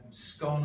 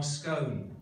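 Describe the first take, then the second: First: Scone rhyming with "gone"; pronunciation of scone. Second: Scone rhyming with "bone"; pronunciation of scone. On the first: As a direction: say scone with a short o. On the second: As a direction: say scone with a long o. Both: Shown as a demonstration. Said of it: "So just a little experiment".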